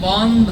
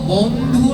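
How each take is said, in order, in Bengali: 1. শব্দটি 'oh' স্বরধ্বনি দিয়ে শেষ হয়। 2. শব্দটি 'oo' স্বরধ্বনি দিয়ে শেষ হয়। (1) "ওকার মানে বহু বচন।" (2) "দীন বন্ধু না, রস্যুকার নেই।"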